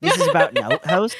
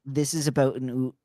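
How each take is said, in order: First: "outhouse" with the ou bent toward oo, a bit quicker; Canadian outhouse. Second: "oot" said with a round oo sound; Canadian oot. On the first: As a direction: let the Canadian ou slip into "outhouse". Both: Shown as a demonstration. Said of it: "you can hear my oots coming out".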